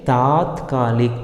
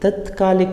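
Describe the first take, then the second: First: The first vowel is long. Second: The first vowel is short. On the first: The speaker calls it right. "उसका सही रूप है तात्कालिक। ता आ की मात्रा वहाँ आनी है" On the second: The speaker calls it wrong. "तत्कालिक नहीं"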